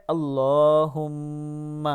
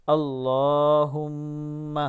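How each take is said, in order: Both takes have the same delivery.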